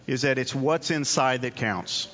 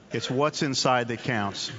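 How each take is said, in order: First: Said in the usual way. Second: It's "what's inside that counts" said slowly, each word weighed; slow emphatic repeat. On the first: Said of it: "repeats for emphasis". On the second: Shown as a demonstration. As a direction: let "what's" carry the weight, slow and deliberate. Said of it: "repeated slowly for emphasis".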